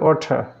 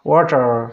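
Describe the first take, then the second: First: The ending is a plain vowel with no r. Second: The r at the end is curled and sounded. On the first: "ব্রিটিশরা ওয়াটারকে বলবে ওয়াটার" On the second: "American উচ্চারণ হবে এরকম"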